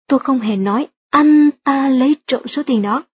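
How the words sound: The stress falls on the words anh ta. Someone else did it, not him. "được nhấn mạnh ở từ anh ta trong câu"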